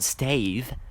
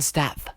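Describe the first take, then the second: First: The vowel is a long 'ay' sound. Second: The vowel is a short 'a' sound. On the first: The speaker calls it wrong. "There's no E there. It's not Stave" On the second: The speaker calls it right. "It's [name]. Get it right"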